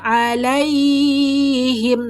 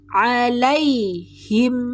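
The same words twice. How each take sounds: First: The ending of the word is drawn out long. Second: The ending is short with a light nasal hum. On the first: The speaker calls it wrong. "Tidak boleh dipanjangkan, tidak boleh alaihim, no" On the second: The speaker calls it right. "Tapi alaihim, mim tetap punya sifat dengung"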